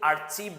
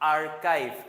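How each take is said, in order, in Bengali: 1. মধ্যের ব্যঞ্জনটি ch ধ্বনি। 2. মধ্যের ব্যঞ্জনটি k ধ্বনি। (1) "আর্চিভ বলে ভুল করে থাকি" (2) "এটার উচ্চারণটা হচ্ছে আর্কাইভ"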